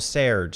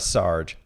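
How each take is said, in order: First: The vowel sounds like the one in 'her'. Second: The vowel sounds like the one in 'car'. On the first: The speaker calls it right. "apparently it's something closer to Serge" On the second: The speaker calls it wrong. "No, it's not Sarge. I thought it was Sarge"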